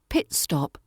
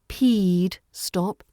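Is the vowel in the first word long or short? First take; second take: short; long. First: The first vowel is short and crisp. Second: The first vowel is a long E sound. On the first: The speaker calls it right. "Keep it short, crisp, and pure" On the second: The speaker calls it wrong. "There's no long E sound"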